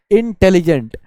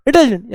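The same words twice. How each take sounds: First: इंटेलिजेंट loud, with a break after 'in'; pause between syllables. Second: इंटेलिजेंट squashed with its syllables swallowed; wrongly run together. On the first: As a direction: give इंटेलिजेंट clear separate beats. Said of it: "आप pause लेंगे". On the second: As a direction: rattle इंटेलिजेंट off as one beat. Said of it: "ऐसे नहीं बोलेंगे". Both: Shown as a demonstration.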